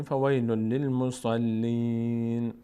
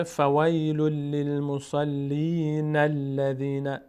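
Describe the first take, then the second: First: "فویل للمصلین" chanted slowly, ending on a long ee and silent-vowel N; stopped reading. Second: "فویل للمصلین الذین" slowly chanted, N linked straight into "الذین"; continued, joined reading. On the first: Teacher shows pausing at verse end, stopped reading. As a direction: stop on "للمصلین" with a long ee and closing N. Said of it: "اینجا توقف بکنیم". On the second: Teacher shows continuing to the next verse, joined reading. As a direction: run "للمصلین" into "الذین" as na-lladhina, without stopping. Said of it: "اگر خواستیم ادامه بدیم". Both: Shown as a demonstration.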